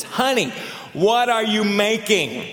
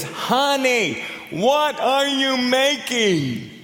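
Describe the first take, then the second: First: Higher call, drawn out slowly; calling out again. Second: Much higher, very slow drawn-out call; calling out again. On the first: Husband asks his wife again from ten feet, slow raised call. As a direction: ask again from closer, slower and higher. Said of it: "and he says". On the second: Husband repeats to his wife from five feet, slow high call. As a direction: stretch every word, high and insistent. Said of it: "He says". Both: Retold or imitated.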